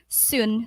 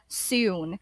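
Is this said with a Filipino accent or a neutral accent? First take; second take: Filipino; neutral. First: The vowel is said the Filipino way. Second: The vowel ends in a w-like glide. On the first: "for Filipinos pronouncing it" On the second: "after the double O, um, there's W sound"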